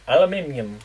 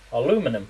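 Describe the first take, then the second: First: Aluminium with five syllables, al-u-MIN-i-um; British aluminium with the extra i. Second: Aluminum with four syllables, a-LU-mi-num; American aluminum, stress on LU. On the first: Asking Melanie which is right, British aluminium. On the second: Asking Melanie which is right, American aluminum. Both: Shown as a demonstration. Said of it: "is it aluminium or aluminum?".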